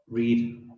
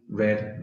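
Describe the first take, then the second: First: The vowel is long, rhyming with need. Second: The vowel is short, rhyming with bed. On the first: It is the present form of the verb. "So remember the pronunciation changes" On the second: It is the past form of the verb. "But the past simple and the past participle are read"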